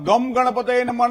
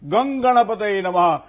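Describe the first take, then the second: First: The first word ends with an m sound. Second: The first word ends with an ng sound. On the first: The speaker calls it wrong. "ગમ ગણપતયે નમઃ નહીં" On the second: The speaker calls it right.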